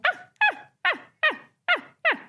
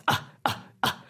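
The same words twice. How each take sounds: First: Very high-pitched, short chimp yelps; high tonal grunts. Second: Short, breathy chimp grunts; low gruff grunts. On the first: Scientist imitating apple-loving Dutch chimps, high tonal grunts. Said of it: "much higher pitch, more tonal grunts". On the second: Scientist imitating unimpressed Edinburgh chimps, low gruff grunts. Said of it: "low-pitched, um, quite gruff-sounding grunts". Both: Shown as a demonstration.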